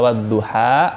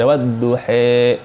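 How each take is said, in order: First: The final vowel is an open 'a'. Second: The final vowel is tilted toward 'e'. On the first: "Ada wadduha dibaca" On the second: "itu imalah, dimiringin"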